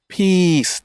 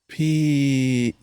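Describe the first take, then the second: First: It sounds quick and tense. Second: It sounds slow and very relaxed.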